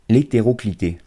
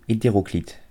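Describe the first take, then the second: First: The word ends with an extra 'ay' vowel. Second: The word ends on a plain t sound. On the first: The speaker calls it wrong. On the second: The speaker calls it right.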